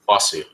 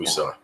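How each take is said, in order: First: The name is said as 'Fossey'. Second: The name is said as 'Fuso'. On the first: The speaker calls it right. "it's Fossey Mensah" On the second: The speaker calls it wrong. "not Fuso"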